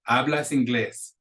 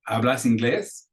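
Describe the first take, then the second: First: The voice falls at the end. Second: The voice rises at the end. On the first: It states that the person speaks English. "That's the statement" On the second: It asks whether the person speaks English. "That's an intonation mark"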